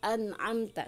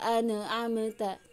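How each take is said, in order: First: The n is clean with no extra vowel. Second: The n bounces with an added vowel after it. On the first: The speaker calls it right. "satu kesatuan" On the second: The speaker calls it wrong. "tidak dipantulkan"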